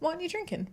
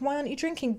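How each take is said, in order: First: It sounds casual and curious. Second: It sounds pushy and pressuring. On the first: The asker is wondering why the habit changed. "that's very different to like" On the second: The asker is pressuring the person to drink. "If they're like"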